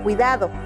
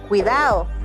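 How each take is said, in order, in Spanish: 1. El sonido de la D se pronuncia de forma estándar. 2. El sonido de la D está cambiado respecto al estándar. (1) "en lugar de" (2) "Hay cambios en el sonido de la S o de la D"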